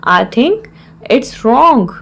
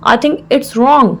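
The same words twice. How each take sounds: First: Measured, with a clear mid-phrase pause; broken into parts. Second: Said in the usual way. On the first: Shown as a demonstration. Teacher repeats the phrase for learners, in separated parts.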